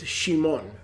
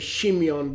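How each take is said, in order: First: The name is said with two syllables. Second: The name is said with three syllables. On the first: This is the proper Hebrew form of the name. The speaker calls it right. "It's Shimon. That's the proper pronunciation" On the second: This is a Greek and Roman form of the name. The speaker calls it wrong. "we tend to say Shimeon, but it's not Shimeon"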